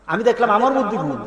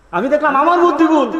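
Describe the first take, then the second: First: Said in the usual way. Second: মধ্যে pushed higher with a falling finish; emphatic repeat. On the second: Shown as a demonstration. Preacher repeats his own fault, higher and emphatic. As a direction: drive the repeat home, higher.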